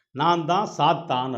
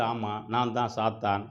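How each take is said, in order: First: Slow, drawn-out announcement; dramatic reveal. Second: Slow, mildly groaned confession; moaning admission. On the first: Wounded man reveals he is Satan, slow and dramatic. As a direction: reveal it slowly, leaning on each word. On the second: Wounded Satan confirms his name, slow mild moan. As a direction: lightly moan it out, dragging the words. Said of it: "ரத்த வெள்ளத்துல முனகிக்கிட்டு". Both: Acted.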